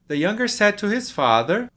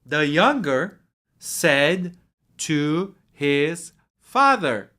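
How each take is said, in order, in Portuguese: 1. Ela é lida em ritmo normal. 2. Ela é lida mais devagar.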